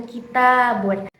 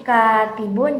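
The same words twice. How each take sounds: First: "kitabun" stressed on a long "ta"; ki-TAA-bun for "kitabun"; stress on second syllable. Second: "katibun" stressed on a long "ka"; KAA-ti-bun for "katibun"; stress on first syllable. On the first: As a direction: lean on the "ta" of "kitabun". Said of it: "tekanan pada huruf taknya". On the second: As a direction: lean on the "ka" of "katibun". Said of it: "tekanannya terdapat pada huruf kafnya". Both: Shown as a demonstration.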